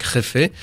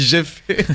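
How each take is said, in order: First: « Réfé » à l'espagnole, J prononcé comme une jota; accent espagnol. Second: « j'ai fait » avec un J français au début; prononciation à la française. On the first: Real, not acted. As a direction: dire « Réfé » avec un accent espagnol appliqué. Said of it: "Quel bel accent. Vous maîtrisez bien les accents étrangers". (prononciation espagnole de « Réfé ») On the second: Shown as a demonstration. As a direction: dire Jefe à la française, comme « j'ai fait ». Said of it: "mon accent de base, j'avais dit". (« j'ai fait », sans aucun accent espagnol)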